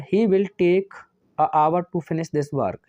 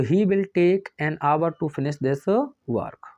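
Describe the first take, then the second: First: The sentence "a hour" read out slowly as given; slow dictation. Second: "an hour" read slowly and evenly, word by word; slow corrected dictation. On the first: Teacher reading out the question sentence, slow and deliberate. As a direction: read out the faulty sentence word by word. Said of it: "इसे H silent रहती है". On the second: Teacher dictating the corrected answer, slow and deliberate. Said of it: "एन लगाओगे". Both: Shown as a demonstration.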